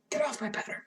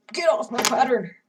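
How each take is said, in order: First: Said in the usual way. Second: Loud exclamation. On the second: Real, not acted. Chair rolled onto pattern.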